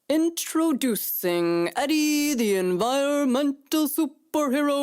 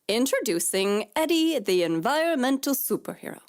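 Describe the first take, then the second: First: It is said in a put-on announcer voice. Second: It is said in an ordinary speaking voice.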